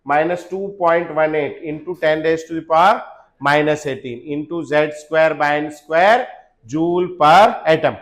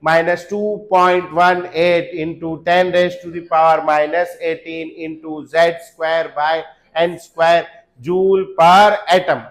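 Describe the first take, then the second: First: Slow spelled-out formula; slow dictation. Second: Very slow loud chanted formula; chanted, shout it out in rhythm for the class. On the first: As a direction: say it slowly, word by word. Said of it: "बोलेंगे". (Formula धीरे-धीरे बोलना) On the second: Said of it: "चिल्ला चिल्ला के बोलना है आपको". (chanted, पूरी क्लास के साथ ज़ोर से, बहुत धीमे सुर में रटना) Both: Shown as a demonstration.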